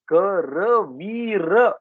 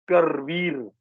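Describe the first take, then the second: First: A short vowel is sounded between r and v. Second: No vowel is sounded between r and v. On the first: The speaker calls it right. "Sanskrit pronunciation of this word, this word will be Karaveer" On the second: The speaker calls it wrong. "we don't pronounce that last akara, like you said"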